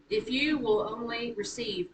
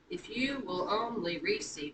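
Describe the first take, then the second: First: It is read with natural speech stress. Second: It is read with a forced da-DUM beat.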